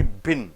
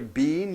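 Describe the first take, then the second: First: The vowel is short and lax. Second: The vowel is long and tense. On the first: The speaker calls it right. "you say bin" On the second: The speaker calls it wrong. "You don't say been"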